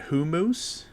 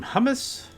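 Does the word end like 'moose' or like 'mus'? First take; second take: moose; mus. First: The word ends with a long 'moose' sound. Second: The word ends with a short 'mus' sound.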